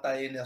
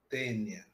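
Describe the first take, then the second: First: The A and E are sounded as two vowels. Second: The A and E merge into one vowel sound. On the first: This is an acceptable Portuguese pronunciation. "Tá certo para o português" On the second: This is the Latin pronunciation. "Junta-se o A e o E junto para o latim, se pronuncia-se tênia"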